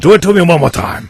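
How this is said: It is said in a mock Asian accent.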